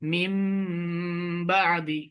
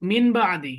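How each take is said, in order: First: The first word ends with an m sound. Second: The first word ends with an n sound. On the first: The speaker calls it right. "এই নুন সাকিনটা মিমের মতো উচ্চারণ হবে" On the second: The speaker calls it wrong. "এখানে ছিল নুন"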